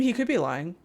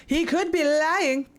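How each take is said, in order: First: Said in the usual way. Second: Mock outburst. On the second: Player butts in on the game character's theory, mock outburst. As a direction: burst out in exaggerated protest.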